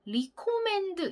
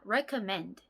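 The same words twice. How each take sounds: First: The first syllable has a long 'ee' vowel. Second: The first syllable has a short 'eh' vowel. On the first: The speaker calls it wrong. "recommend 이렇게 발음하시는 경우가 있는데요" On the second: The speaker calls it right. "re가 아니라 re입니다"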